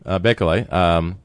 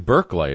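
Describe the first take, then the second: First: The first syllable sounds like 'bake'. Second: The first syllable sounds like 'berk'.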